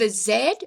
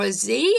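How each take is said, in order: First: The letter is said the non-American way. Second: The letter is said the American way.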